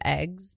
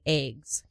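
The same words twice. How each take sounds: First: The word is said in a general accent. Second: The word is said in an upstate New York accent. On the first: "instead of eggs" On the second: "people from upstate New York talk like they're from Midwest"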